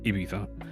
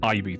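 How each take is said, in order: First: The middle consonant sounds like a th. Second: The middle consonant sounds like a z. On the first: The speaker calls it right. "I imagine it's Ibiza" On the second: The speaker calls it wrong. "we always grew up calling it Ibiza, but that, I imagine it's not Ibiza"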